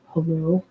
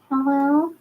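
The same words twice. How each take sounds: First: It is said in a put-on deeper voice. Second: It is said in her natural friendly voice.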